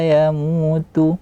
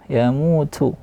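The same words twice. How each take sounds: First: The t is light with little air. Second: The t has a strong puff of air. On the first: The speaker calls it right. "dan tipis" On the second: The speaker calls it wrong. "tidak yamutu yamutu"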